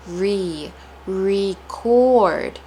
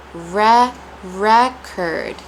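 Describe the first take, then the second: First: Re said ree, then record as ree-CORD; syllable breakdown. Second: Re said reh, then record as REK-erd; syllable breakdown. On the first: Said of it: "placing a lot of stress on re". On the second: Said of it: "ending of the word curd". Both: Shown as a demonstration.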